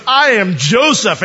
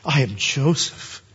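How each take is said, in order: First: High, loud, slow proclamation; dramatic revelation. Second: Slow, measured declaration; slow revelation. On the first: Joseph springs the truth on his brothers, loud and dramatic. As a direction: announce it big, drawing the words out. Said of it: "he looks up at you and goes". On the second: Joseph reveals himself to his brothers, slow and measured. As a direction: say it slowly, letting each word land. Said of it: "Joseph just blurts out the reality". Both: Acted.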